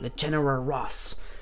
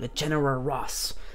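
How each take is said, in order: First: It is said with an American accent. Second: The same.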